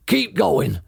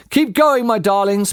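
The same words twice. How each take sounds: First: Mild farmer shout over machines. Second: Out of breath, louder urging; panting. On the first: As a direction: call out to the other farmers. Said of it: "shouted to Bunce and Bean". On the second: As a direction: gasp it out while digging. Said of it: "panted Mister Fox". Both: Acted.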